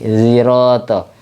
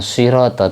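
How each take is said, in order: First: The first sound blends s toward a z. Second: The first sound is a plain s. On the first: "ismam antara sin sama shad" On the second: "bukan sirato"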